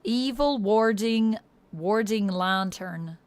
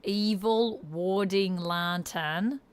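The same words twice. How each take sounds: First: Slow, strongly Irish-leaning accent. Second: Slow Australian accent, placed forward; corrected Australian accent. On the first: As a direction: draw the words out in an Irish accent. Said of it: "becoming very Irish here now". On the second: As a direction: bring the Australian vowels forward, slowly. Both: Shown as a demonstration.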